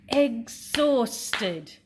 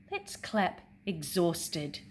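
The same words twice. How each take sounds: First: Exhausted split into three loud beats, ex-haus-ted; syllables clapped out. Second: Said in the usual way. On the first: Shown as a demonstration. Teacher to class, Exhausted clapped into syllables.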